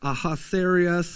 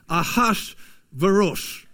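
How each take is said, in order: First: The name gets a familiar English-style reading. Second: The name gets a Hebrew-style pronunciation. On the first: "most of us would read it as like Ahasuerus" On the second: "like the Hebrew, how you're, my best attempt at it is Ahasuerus"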